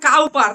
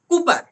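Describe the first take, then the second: First: The first syllable sounds like cow. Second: The first syllable sounds like coo. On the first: The speaker calls it wrong. "এটা কেউ বল দিও না যে কাউ পার" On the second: The speaker calls it right. "এটা কুপার pronunciation"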